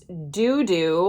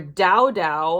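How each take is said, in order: First: Both syllables use an 'oo' vowel. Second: Both syllables use an 'ow' vowel. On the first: "this is called Doo Doo" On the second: "as I could, you know, decide to call it"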